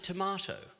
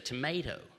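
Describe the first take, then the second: First: It is said in an Australian accent. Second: It is said in an American accent. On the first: This is how the speaker's own country says it. "I speak Australian. I say tomato" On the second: This is how the listeners' country says it. "you say tomato"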